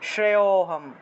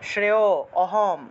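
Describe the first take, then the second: First: The a-vowel blends into the preceding vowel. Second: The a-vowel is said separately and fully. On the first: The speaker calls it right. "একসাথে উচ্চারণ করতে হবে" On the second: The speaker calls it wrong. "এরকম অহমটা উচ্চারণ করা যাবে না"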